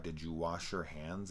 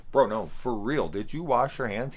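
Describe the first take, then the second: First: Said in the usual way. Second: Higher and much louder, demanding an answer; incredulous loud repeat of "did you wash your hands"; insistent loud. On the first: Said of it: "asks him straight out". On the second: Retold or imitated. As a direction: press him hard, for real now. Insisting on hygiene question.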